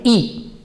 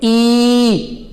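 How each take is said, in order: First: Quick, short "ई"; short vowel. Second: Long, held "ई"; exaggerated long vowel. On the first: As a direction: say "ई" fast, cut it short. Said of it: "fast पढ़ेंगे". (छोटी, तेज़ "ई") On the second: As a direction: stretch "ई" out on a level note. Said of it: "थोड़ा exaggerate करके पढ़ने". (बड़ी, खिंची हुई "ई") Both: Shown as a demonstration.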